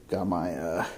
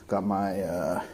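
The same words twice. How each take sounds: No difference in how they are said.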